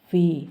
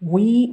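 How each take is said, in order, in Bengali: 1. শব্দটি v ধ্বনি দিয়ে শুরু হয়। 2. শব্দটি w ধ্বনি দিয়ে শুরু হয়। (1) "এইটাকে আমরা বলতে পারি ভি" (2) "উই বলবেন না"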